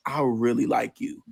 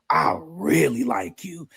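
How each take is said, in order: First: Said in the usual way. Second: REALLY stretched out slow and heartfelt; drawn-out emphatic confession. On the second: Retold or imitated. Man confessing on the walk home, REALLY drawn out emphatically. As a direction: drag out REALLY, imitating a lovestruck man.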